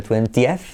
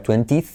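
First: "twentieth" in three syllables, twen-ti-eth; pronunciación correcta. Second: "twentieth" squashed into two syllables, twen-tith; pronunciación incorrecta. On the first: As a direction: give "twentieth" its separate final eth. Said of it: "sino twentieth". («twentieth» en tres sílabas, con eth final) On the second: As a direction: say "twentieth" wrongly, without the extra vowel. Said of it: "que no sería twentieth". («twentieth» mal dicho, en dos sílabas) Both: Shown as a demonstration.

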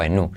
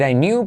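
First: "knew" as "noo"; no Y glide. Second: "knew" as "nyoo"; "I knew" said "I niu"; Y-glide variant. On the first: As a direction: go straight from N to oo in "knew". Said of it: "pero yo digo I knew". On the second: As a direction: add a Y glide after N in "knew". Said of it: "Puedes decir I knew". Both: Shown as a demonstration.

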